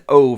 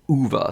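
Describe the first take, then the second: First: The name is said like 'Oh', one syllable. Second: The name is said like 'Oo-va', two syllables. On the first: The speaker calls it wrong. "I said O forever" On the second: The speaker calls it right. "everybody's been telling me it is Uva"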